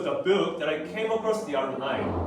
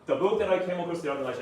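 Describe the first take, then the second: First: The pitch rises and falls noticeably throughout. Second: The pitch stays flat and even throughout. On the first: The speaker calls it right. "높낮이 intonation 높낮이" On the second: The speaker calls it wrong. "아니라"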